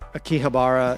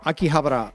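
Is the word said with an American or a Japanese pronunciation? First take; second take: American; Japanese. First: It is said with an Americanized pronunciation. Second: It is said with a Japanese pronunciation. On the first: This is how non-native listeners hear it. "is how people hear it that aren't Japanese" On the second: This is how native speakers officially say it. "is like the Japanese official pronunciation"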